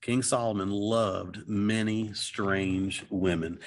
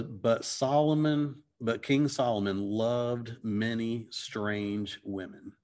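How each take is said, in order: First: Slow repeat with weight on every word; "King Solomon loved many strange women" said again, slowly, each word weighted; slow emphatic repeat of the verse; repeated for emphasis. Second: Slow, deliberate reading of the verse; slowly reading the verse aloud; slow scripture reading. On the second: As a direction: read it out word by word, slowly. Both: Shown as a demonstration. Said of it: "and it says".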